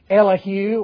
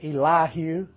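First: The name is said in a neutral accent. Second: The name is said in a North Texas accent.

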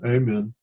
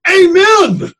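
First: It is said flatly, in a monotone. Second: It is said loudly, as an exclamation. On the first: It is just a formal ending. The speaker calls it wrong. "we mustn't read that in a monotone" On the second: It is a burst of praise. The speaker calls it right. "it's like an exclamation mark"

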